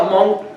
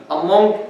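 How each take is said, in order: Both takes have the same delivery.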